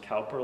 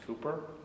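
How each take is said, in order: First: The first vowel sounds like 'cow'. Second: The first vowel sounds like 'coo'. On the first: The speaker calls it wrong. "sometimes mispronounced Cowper" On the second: The speaker calls it right. "it's Cooper, not Cowper"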